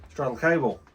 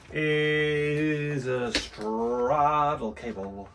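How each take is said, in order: First: Said in the usual way. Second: Very slow stretched-out announcement; drawn out. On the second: Pretend. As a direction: stretch every word like a showman.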